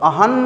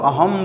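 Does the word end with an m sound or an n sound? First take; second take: n; m. First: The word ends with an n sound. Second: The word ends with an m sound. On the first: The speaker calls it wrong. "अहन नहीं बोलते हो" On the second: The speaker calls it right. "अहम बोलते हो"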